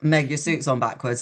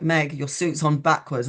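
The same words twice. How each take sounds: First: Said in the usual way. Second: "Meg, your suit's on backwards" said slowly, word by word; insistent repeat. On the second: Retold or imitated. Friend repeats the unheeded warning.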